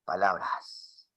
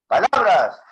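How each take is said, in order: First: Soft, low, drawn-out word; low volume. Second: Loud, raised-pitch word; loud volume. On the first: Teacher repeating a volume demo, softly. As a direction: say it quietly and slowly. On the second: Teacher repeating a volume demo, loudly. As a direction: project it strongly. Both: Shown as a demonstration. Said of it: "Te has dado cuenta que está el volumen".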